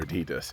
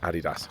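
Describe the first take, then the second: First: It is said the American way. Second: It is said the British way. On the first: "When we're in the U S" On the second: "when we're in the U K"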